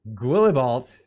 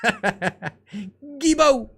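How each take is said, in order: First: The name is sounded out in an English way. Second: The name is pronounced in a French way. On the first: The speaker calls it wrong. "it looks like Guillibalt" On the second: The speaker calls it right. "it's pronounced Guilbeault"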